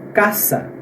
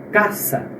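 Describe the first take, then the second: Both takes have the same delivery.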